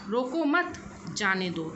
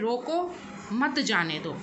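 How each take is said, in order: First: A pause follows the word mat. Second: A pause follows the word roko. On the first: Do not stop them; let them go. "तो यहाँ पर नहीं रोकना है बल्कि जाने देना है" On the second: Stop them; do not let them go. "तो यहाँ पर नहीं जाने देने के संदर्भ में"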